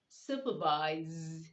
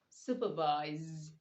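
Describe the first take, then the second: No difference in how they are said.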